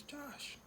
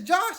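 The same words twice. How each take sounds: First: Hushed call. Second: Josh called out high and loud; calling out. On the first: Prosecutor calling Josh again, hushed and ominous. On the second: Prosecutor at the neighbor's door, loud call. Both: Retold or imitated.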